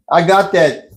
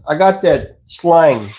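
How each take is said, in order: First: Said in the usual way. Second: Southern drawl. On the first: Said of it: "I could definitely turn on the slang". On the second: Shown as a demonstration. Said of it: "I can real easy talk like this".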